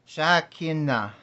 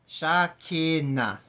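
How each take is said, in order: No difference in how they are said.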